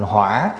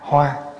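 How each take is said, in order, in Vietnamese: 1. Âm tiết này được đọc với thanh hỏi. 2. Âm tiết này được đọc với thanh ngang. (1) "lại đi để dấu hỏi vô, thành hỏa"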